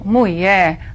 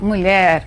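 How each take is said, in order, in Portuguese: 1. É dita de forma regional rural reduzida. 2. É dita na forma padrão completa. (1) "Dizer, por exemplo, mulher, ... pode ocorrer sim em certas regiões" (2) "ao invés de falar mulher"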